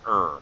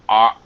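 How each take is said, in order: First: The word is reduced to a weak vowel. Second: The word is said with a full vowel.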